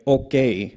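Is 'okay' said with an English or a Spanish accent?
Spanish. It is said with a Spanish accent. "like a Spanish uh, accent. I would say like okay"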